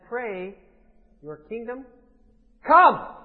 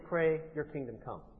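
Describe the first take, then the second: First: It is said as a firm command. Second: It is said as a plain statement.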